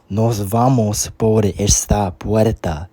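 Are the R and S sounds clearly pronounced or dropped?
pronounced. The R and S sounds are clearly pronounced. "so that's how we say it"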